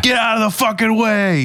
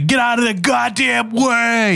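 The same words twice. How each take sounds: First: High mock road-rage yell. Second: Slow high East Coast yell; East Coast road rage. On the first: Imitating the cop's road rage at the car. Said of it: "I'm leaning towards fucking". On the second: Retold or imitated. Imitating an East Coast cop yelling at a car. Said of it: "he's an East Coaster".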